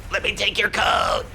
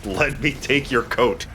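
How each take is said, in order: First: Mock polite shout. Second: Slow, careful repeat of "Let me take your coat.". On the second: Acted. Player repeats the line slowly for his confused friend. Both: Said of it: "I'm sorry, what did you say?".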